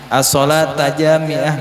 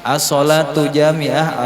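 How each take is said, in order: First: The first word ends in an 'a' vowel. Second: The first word ends in a 'u' vowel.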